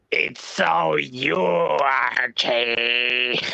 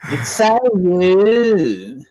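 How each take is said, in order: First: Slow, drawn-out mock impression; impression of Archie. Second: Much higher, very slow drawn-out teasing voice; mock impression. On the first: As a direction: stretch it slowly, teasing Archie. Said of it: "How's my impression of you". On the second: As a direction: stretch every word high and slow.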